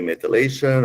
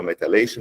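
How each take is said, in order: First: "methylation" with a short middle vowel, meh-tuh-LAY-shun; alternate pronunciation. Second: "methylation" with a long eye vowel, meh-tie-LAY-shun; alternate pronunciation. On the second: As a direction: say "methylation" with a clear tie in the middle. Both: Shown as a demonstration. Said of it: "depends on my, my accent".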